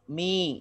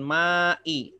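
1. Vokal pertamanya 'i' tertutup. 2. Vokal pertamanya 'a' terbuka. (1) "tapi mi" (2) "bacanya bukan ma'i"

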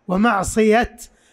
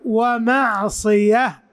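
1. تنتهي الكلمة بصوت t واضح. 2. تنتهي الكلمة بصوت h بعد 'a'. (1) "يقفون بالتاء" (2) "إذا وقفوا ومعصية بالهاء"

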